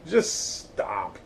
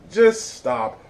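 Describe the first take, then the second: First: Quiet plea. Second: Louder plea. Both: Real, not acted.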